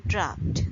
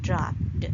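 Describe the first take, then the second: First: "dropped" ending in a t sound; unvoiced t ending. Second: "dropped" slowly, mispronounced with a final d; voiced d ending. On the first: Teacher modelling the ED rule, "dropped" with final t. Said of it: "we pronounce it as dropped". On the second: Teacher showing the mistake to avoid, "dropped" with final d. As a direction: end "dropped" wrongly on a voiced d. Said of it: "and not dropped". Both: Shown as a demonstration.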